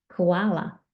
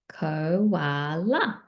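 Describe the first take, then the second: First: Said in the usual way. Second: KO, WA, LA stretched apart, rising at the end; drawn-out Koala, one beat per syllable; split into syllables. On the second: Shown as a demonstration. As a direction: sound out Koala in three slow beats. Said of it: "count those, um, syllables".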